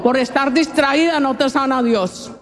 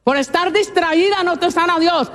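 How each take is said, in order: First: Said in the usual way. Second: Por estar distraída no te sana Dios said higher, leaning on distraída; emphatic repeat. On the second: Shown as a demonstration. Preacher repeating the warning to distracted women, higher and pressed on distraída. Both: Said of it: "repeated line".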